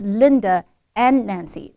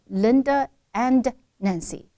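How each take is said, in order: First: The D in 'and' is not released. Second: The D in 'and' is clearly released. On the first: The speaker calls it right. "the D is not supposed to be exploded" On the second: The speaker calls it wrong. "exploding the and D. So now he sounded like"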